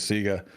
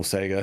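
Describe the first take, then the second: First: "Sega" said as SEE-guh; long ee in the first syllable of "Sega"; first pronunciation of Sega. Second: "Sega" said as SAY-guh; ay in the first syllable of "Sega"; alternative pronunciation of Sega. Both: Shown as a demonstration. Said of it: "however you wanna say it".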